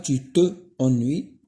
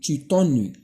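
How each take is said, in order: First: The pronoun's vowel is fully pronounced. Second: The pronoun's vowel is dropped and linked. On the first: The speaker calls it wrong. "On ne dit pas" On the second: The speaker calls it right. "on dit"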